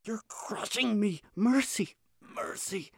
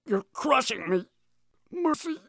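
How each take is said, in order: First: Weak, whispered plea, almost gone; faint rattling whisper. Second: Strained high cry from beneath; pinned under heavy weight. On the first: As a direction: breathe it out, crushed and fading. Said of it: "The same faint voice, the same rattle". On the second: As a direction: gasp it out, crushed underfoot. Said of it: "let out a rattling cry". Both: A narrator's reading.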